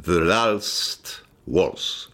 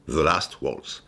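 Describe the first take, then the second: First: "The Last Waltz" said very slowly in an English accent; "The Last Waltz" savoured word by word in English; English title drawn out. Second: Said in the usual way. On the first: Shown as a demonstration. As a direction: stretch out "The Last Waltz", low and deliberate. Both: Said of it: "le documentaire s'appelait".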